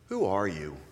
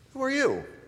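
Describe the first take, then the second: First: The question sounds thoughtful and reflective. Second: The question sounds casual and friendly. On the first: An invitation to reflect on one's deeper identity. "Change it again ... it invites a kind of introspection" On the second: A simple request for the person's name. "your answer would begin with something like, well, I'm [name]. Nice to meet you"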